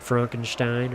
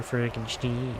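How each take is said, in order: First: Frankenstein said as "FRONK-en-stine"; first pronunciation option. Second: Frankenstein said as "FRANK-en-steen"; second pronunciation option. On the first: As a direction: offer Frankenstein with a "stine" ending. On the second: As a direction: offer Frankenstein with a "steen" ending. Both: Shown as a demonstration. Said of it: "Is it Frankenstein or Frankenstein".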